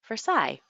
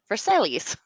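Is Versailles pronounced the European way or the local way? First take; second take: European; local. First: It is pronounced the European, French-like way. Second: It is pronounced the local Americanized way. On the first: It marks the speaker as not from here. "I say things like" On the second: It is how the locals say the name. "instead of"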